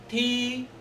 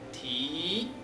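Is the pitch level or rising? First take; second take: level; rising. First: The pitch stays high and level. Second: The pitch rises from low to high. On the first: It means to kick. "The first tone is a flat and a high pitch" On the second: It means to lift. "Low to high"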